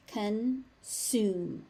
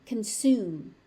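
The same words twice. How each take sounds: First: "Consume" split as con... sume; syllable by syllable. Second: Said in the usual way. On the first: Shown as a demonstration. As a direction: pause between the halves of "Consume". Teacher breaks word into syllables.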